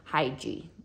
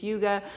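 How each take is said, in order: First: The first vowel sounds like 'eye'. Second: The first vowel sounds like 'oo'. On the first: The speaker calls it wrong. "which is not how I had been reading it in my head" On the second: The speaker calls it right. "that is how you pronounce it"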